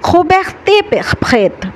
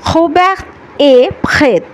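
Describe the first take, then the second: First: A consonant sound links the words together. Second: The words stay separate with no linking consonant. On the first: The speaker calls it wrong. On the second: The speaker calls it right.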